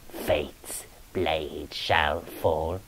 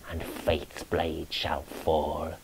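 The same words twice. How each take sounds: First: Slow whispered doom; eerie whispered echo. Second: Softer, slower doom line; grim hushed prophecy. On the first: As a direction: breathe the doom out, very slowly. Ghost's doom prophecy. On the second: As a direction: let the doom sink, softer. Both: A narrator's reading.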